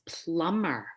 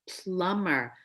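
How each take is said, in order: Both takes have the same delivery.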